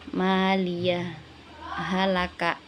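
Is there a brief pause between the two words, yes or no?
no. The two words merge with no pause between. "kalau yang pertama itu dibacanya"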